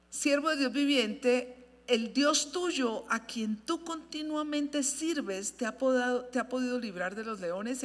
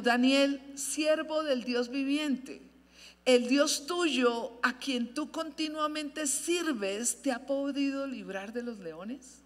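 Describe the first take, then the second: First: Slow, grieving call to the servant of God; sad voice. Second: Slow, grieving call to Daniel; sad voice. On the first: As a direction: read it slowly, mournful and pleading. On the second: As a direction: plead slowly, heavy with sorrow. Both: A narrator's reading. King calling sadly into the lions' den, slow and mournful. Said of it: "Con voz triste".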